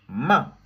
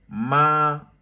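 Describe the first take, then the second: First: The pitch drops sharply from high to low. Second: The pitch stays high and level. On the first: "ça vient du haut, ça descend en bas... c'est brusque" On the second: "avec le premier ton, tout droit"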